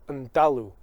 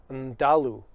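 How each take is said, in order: No difference in how they are said.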